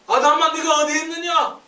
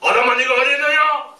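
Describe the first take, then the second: First: It is said tenderly, with worried compassion. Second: It is said sternly, like an accusing judge.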